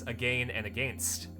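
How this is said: It is said with a Canadian pronunciation. "But the Canadian way of pronouncing it is"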